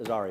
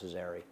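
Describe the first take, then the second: First: The middle vowel sounds like 'ah', as in Arazi. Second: The middle vowel sounds like 'eh', as in Azeri. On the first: The speaker calls it wrong. "I always mispronounce that" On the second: The speaker calls it right. "but it's Azari"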